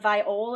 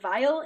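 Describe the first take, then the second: First: The word ends with a fuller 'ol' sound. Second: The word ends with a reduced 'ul' sound. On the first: The speaker calls it right. "It's a viol" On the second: The speaker calls it wrong. "which I realize I pronounce it vial"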